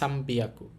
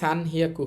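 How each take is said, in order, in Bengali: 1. দ্বিতীয় অংশটি b ধ্বনি দিয়ে শুরু হয়। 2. দ্বিতীয় অংশটি h ধ্বনি দিয়ে শুরু হয়। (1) "এটা কিন্তু হবে সাম্বিয়াকু" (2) "এখানে সান হিয়াকু হবে না"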